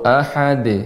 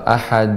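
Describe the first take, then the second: First: The final d is released with a bounce. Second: The final d is held without a bounce. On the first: The speaker calls it right. "Dibaca dengan dipantulkan ad. Bahkan di akhir begitu juga" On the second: The speaker calls it wrong. "Jadi jangan uh, uh, ahad uh, membacanya"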